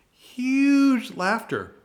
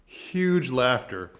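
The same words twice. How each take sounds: First: Much higher, louder and slower, like a big announcer; hammed-up booming audience. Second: Said in the usual way. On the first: Shown as a demonstration. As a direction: stretch out "Huge laughter" high and loud, like a booming crowd cue.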